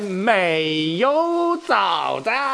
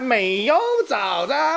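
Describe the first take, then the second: First: The phrase is spoken slowly. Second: The phrase is spoken quickly. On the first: The speaker calls it right. "放慢一点" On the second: The speaker calls it wrong. "太快了"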